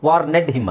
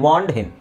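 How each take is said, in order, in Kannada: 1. ಕೊನೆಯ ಭಾಗವನ್ನು ಒಂದು ಹೆಚ್ಚುವರಿ ಉಚ್ಚಾರಾಂಶವಾಗಿ ಹೇಳುತ್ತಾರೆ. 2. ಕೊನೆಯ ಭಾಗವು ಉಚ್ಚಾರಾಂಶ ಇಲ್ಲದೆ ಪದಕ್ಕೆ ಸೇರುತ್ತದೆ. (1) "ವಾರ್ನೆಡ್ ಹಿಮ್ ಅಲ್ಲ" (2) "ಐ ವಾರ್ನ್ಡ್ ಹಿಮ್"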